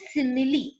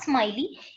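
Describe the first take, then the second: First: It is said in three syllables, sim-i-lee. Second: It is said in two syllables, like smile-ee. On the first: The speaker calls it right. "It is simile" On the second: The speaker calls it wrong. "Most of you all tell it as smiley. It is not smiley"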